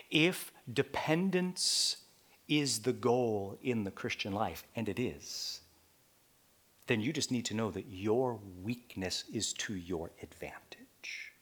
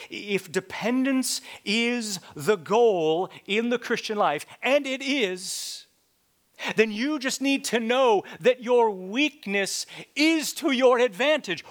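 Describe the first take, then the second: First: Softer, whispered line ending in "your weakness is to your advantage"; hushed first take. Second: Louder, higher preaching on "your weakness is to your advantage"; loud repeat. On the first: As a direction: say it low and intimate. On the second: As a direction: proclaim it the second time. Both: Shown as a demonstration. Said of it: "I'm gonna say that again".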